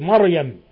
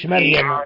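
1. يُنطق الـ r مفخّمًا وممتلئًا. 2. يُنطق الـ r مرقّقًا وخفيفًا. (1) "فخم الرأي يا أخي" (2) "مش مريم"

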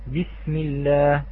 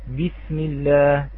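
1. الباء قوية، تامة الانحباس ومجهورة. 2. الباء قوية، تامة الانحباس ومجهورة.

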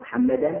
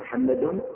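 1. تنتهي الكلمة بحركة a. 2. تنتهي الكلمة بحركة u. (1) "هذا منصوب بالفتحة الظاهرة" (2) "هذا مرفوع بالضمة الظاهرة"

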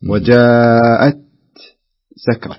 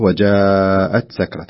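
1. توجد سكتة خفيفة بعد الكلمة الأولى. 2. الكلمتان متصلتان دون سكتة. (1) "تجده يسكت سكتة لطيفة" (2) "فالأفضل أنه يقرأها بهذه الطريقة"

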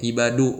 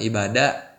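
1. Kata ibadu berakhir dengan vokal u. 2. Kata ibadu berakhir dengan vokal a. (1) "Du bacanya ibadu" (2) "bukan ibada"

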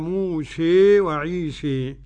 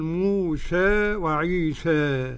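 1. الحركة الأخيرة تميل بقوة نحو 'ee'. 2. الحركة الأخيرة تميل قليلا نحو 'ee'. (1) "والإمالة" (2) "التقليل"

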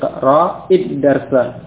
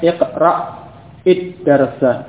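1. Kedua kata tersambung mulus dengan satu vokal pendek. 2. Ada henti sebelum bunyi hamzah ganda. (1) "jadi iqra id-darsa" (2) "bukan iqra id-darsa ... Kalau iqra kan sukun dulu kemudian id-darsa, ya, tidak boleh"

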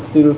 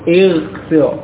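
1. Vokal pertama adalah bunyi u. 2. Vokal pertama adalah bunyi i. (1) "bukan ujlis atau ughsil, bukan" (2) "sehingga di sini menjadi ijlis, ighsil"

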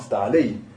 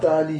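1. Le mot se termine par un son 'ay'. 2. Le mot se termine par un son 'ee'. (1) "La fatra reste" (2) "C'est pas ta'ali, ça c'est khata"

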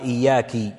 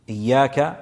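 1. تنتهي الكلمة بحركة 'i'. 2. تنتهي الكلمة بحركة 'a'.

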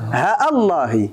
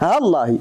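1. همزة تفصل بين ها والله دون مد. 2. الهاء تتصل باللام مباشرة دون همزة. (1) "بالقطع دون مد" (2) "الهاء متصلة باللام، بحذف الألف والهمزة"

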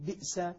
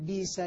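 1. الهمزة الموقوفة تغلق المقطع الأول. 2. حرف مد طويل بصوت ee يحل محل الهمزة. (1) "هذه همزة ساكنة بأصلها" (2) "نبدل الهمزة الساكنة حرف مد من جنس حركة ما قبلها"

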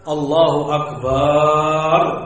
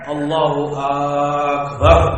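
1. Suku kata kedua pada Akbar yang dipanjangkan. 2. Suku kata pertama pada Akbar yang dipanjangkan. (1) "kalau dia memanjangkan baknya" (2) "kalau akbarnya yang dia panjangkan"

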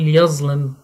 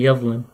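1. تتبع الحركات نطق اللهجة العامية. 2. تتبع الحركات نطق التلاوة الفصيحة.

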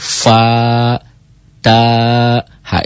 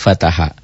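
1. Tiap suku dibaca terpisah, ada jeda. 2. Sukunya dibaca menyambung jadi satu kata. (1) "dibacanya jangan disatuin, gitu loh. Dibacanya dieja" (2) "Itu kan dibaca fataha"

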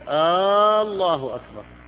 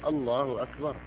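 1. الحركة الأولى ممدودة طويلة. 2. الحركة الأولى قصيرة وبسيطة. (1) "وهذه مصيبة، لأنه كأنه يقول الله" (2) "تقرير عبارة جازمة"

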